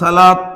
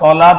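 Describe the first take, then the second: First: It starts with a plain, light s sound. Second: It starts with a heavy, emphatic s sound. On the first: The speaker calls it wrong. "এখন সালাত কইতে গেলে তো ভুল হয়, কারণ সদ সিনের একটা পার্থক্য আছে" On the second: The speaker calls it right. "এজন্য যদি বলতে হয় তাহলে সলাত বলতে হবে"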